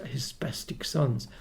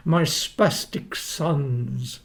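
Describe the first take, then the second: First: Said in the usual way. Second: Slow, drawn-out mock of Frank; imitating Frank. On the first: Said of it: "He used to call us his". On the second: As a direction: drag out the words the way Frank sneered them. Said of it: "he used to say".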